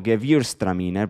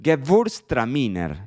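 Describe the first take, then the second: First: "Gewürztraminer" as "ge-VIUR-stra-mi-ner"; old Spanish reading. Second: "Gewürztraminer" slowly as "ge-VURS-tra-mi-ner"; German attempt. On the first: Retold or imitated. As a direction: read "Gewürztraminer" as spelt, Spanish way. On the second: Shown as a demonstration. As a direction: carefully sound "Gewürztraminer" with a v for the W. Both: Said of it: "yo siempre la pronunciaba como".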